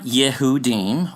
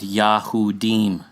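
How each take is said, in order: First: The first syllable is said as 'yeh'. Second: The first syllable is said as 'yah'. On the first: The speaker calls it wrong. "So it's not Yehudim" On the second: The speaker calls it right. "It's Yahudi and Yahudim"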